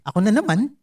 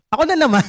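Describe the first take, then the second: First: Said in the usual way. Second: Exasperated complaint. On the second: Pretend. Churchgoer complaining the sermon is about him, exasperated. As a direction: caught out again and fed up. Listener feels targeted by preaching.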